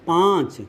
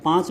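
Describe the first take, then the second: First: पाँच said alone, its long vowel nasalised; anunasik demonstration. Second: Said in the usual way. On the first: Shown as a demonstration. Teacher showing where air goes, drawn-out nasalised vowel in पाँच. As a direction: let the vowel of पाँच out through mouth and nose. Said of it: "देखिए दोनों आवाज़". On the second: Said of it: "जब पाँच बोलिए".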